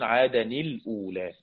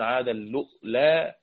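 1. الكلمتان تبقيان منفصلتين، ويربط بينهما صوت n. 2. الكلمتان تندمجان مع همزة في الوسط. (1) "والباقون" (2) "وقالوا له الهمز"

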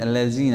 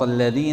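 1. الحرف الأوسط صوت 'z'. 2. الحرف الأوسط صوت 'dh'. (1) "أبدلت الذال بالزاي ما تصح" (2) "بدل ما تقول اهدنا صراط الذين"

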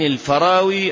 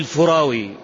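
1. المقطع الأول فيه الصوت 'a' (al-Farawi). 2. المقطع الأول فيه الصوت 'u' (al-Furawi). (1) "يجوز الوجهان الفتح والضم" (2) "يجوز الوجهان الفتح والضم"

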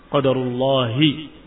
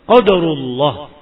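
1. Frasa ini berakhir dengan vokal pendek i. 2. Frasa ini berakhir pada konsonan h tanpa vokal. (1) "Dan itu yang lebih tepat" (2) "lebih tepat daripada qadarullah"

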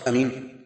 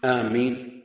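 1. الحرف الأول قصير، والميم غير مشدّدة. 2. الحرف الأول ممدود، والميم مشدّدة. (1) "القصر" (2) "التشديد"

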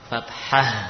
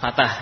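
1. Bunyi h di tengah terdengar jelas. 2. Bunyi h di tengah dihilangkan. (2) "bukan fatah"

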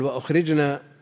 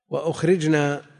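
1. الحركة الأولى في الكلمة هي 'a'. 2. الحركة الأولى في الكلمة هي 'u'. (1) "بفتح الهمزة وسكون الجيم" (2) "لا، وأخرجنا بضم الهمزة وسكون الجيم"

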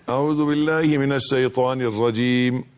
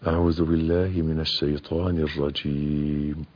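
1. تُقرأ بصوت عالٍ مرتفع. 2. تُقرأ بصوت مسموع بقدر متوسط. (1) "مش يعلي صوته ... لا مش كده" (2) "وإنما"

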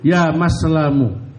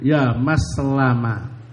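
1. Nama itu berakhir dengan vokal 'u'. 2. Nama itu berakhir dengan vokal 'a'. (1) "wa dhammiha" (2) "bi fathil mim"

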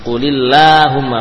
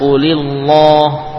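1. L dibaca tipis. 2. L dibaca tebal. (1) "dibaca tipis" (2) "bukan qulillah"

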